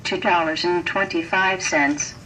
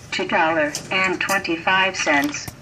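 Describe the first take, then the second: No difference in how they are said.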